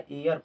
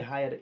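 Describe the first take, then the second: First: The word begins with a vowel, no h sound. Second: The word begins with an audible h sound. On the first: The speaker calls it right. "एयर पढ़ेंगे इसको" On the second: The speaker calls it wrong. "ये नहीं कि हायर"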